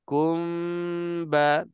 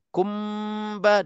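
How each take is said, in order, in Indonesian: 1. Bibir menutup terlambat atau hanya longgar. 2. Bibir menutup langsung pada huruf m. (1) "lambat kita nak rapatkan ataupun tak rapat bibir mulut" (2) "Kalau kita rapatkan terus"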